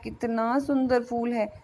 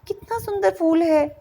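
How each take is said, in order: First: It is said in a sad, sorrowful tone. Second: It is said in a questioning tone. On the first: The speaker feels sorrow about the flower. "कोई दुखी स्वर में कह रहा है" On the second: The speaker wants to know how beautiful it is. "कोई पूछ रहा है"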